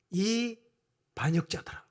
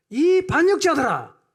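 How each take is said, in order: First: Said in the usual way. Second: Loud, high, drawn-out shout as Moses; acted furious roar; angry outburst. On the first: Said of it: "모세가 이렇게 말합니다". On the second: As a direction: explode at the crowd, acting Moses. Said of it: "감정이 그냥 확 폭발했어요".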